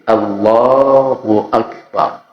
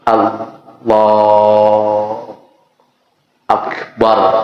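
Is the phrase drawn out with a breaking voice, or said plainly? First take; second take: plain; drawn out. First: It is said plainly, without lengthening. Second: It is drawn out, with the voice breaking. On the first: The speaker calls it right. "sekedarnya itu, apa adanya, nggak bisa dibikin-bikin" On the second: The speaker calls it wrong. "Ada yang sampai suara terputus"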